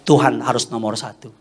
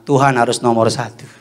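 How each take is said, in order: First: Said in the usual way. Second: Firmer, rallying statement; more spirited. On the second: Shown as a demonstration. Preacher rousing congregation to put God first, firmer rallying tone. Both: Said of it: "Kurang semangat".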